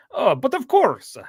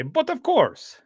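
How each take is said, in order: First: Imitating a Russian accent, much higher and slow; playful mock Russian "Oh, but of course". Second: Mock Russian accent, much higher; hammed-up Russian "But of course". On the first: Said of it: "when he breaks into his Russian accent". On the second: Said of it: "in a Russian accent".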